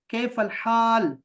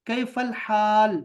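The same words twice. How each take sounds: First: कैफल हाल slow, throaty ह in हाल; careful Arabic. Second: कैफल हाल very slow, ह in हाल from the throat; slow demo. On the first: Teacher builds the greeting habit in students. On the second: Teacher repeats the greeting for students to copy. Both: Shown as a demonstration. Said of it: "आदत बनाएं".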